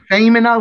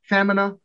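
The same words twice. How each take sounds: First: The first vowel is long. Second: The first vowel is short. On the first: It means woman. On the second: It means thighs. "If you make it F short E M I N A, pronounced femina, that means thighs"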